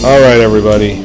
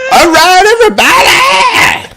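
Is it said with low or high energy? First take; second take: low; high. First: It is said flatly, with low energy. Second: It is said loudly, with high energy.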